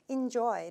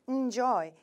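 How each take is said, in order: First: The stress is on the second syllable. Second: The stress is on the first syllable. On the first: The speaker calls it right. "enjoy 라고 발음해 주시는 게 좋을 것 같아요" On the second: The speaker calls it wrong. "너무 enjoy처럼 발음하시면은 약간 앞쪽에 발음이 세지기 때문에"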